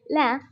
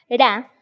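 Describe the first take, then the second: First: The consonant sounds close to an l. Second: The consonant is a Spanish-style r sound. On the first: The speaker calls it right. "la pronunciación correcta sería" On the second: The speaker calls it wrong. "esta pronunciación es muy extraña"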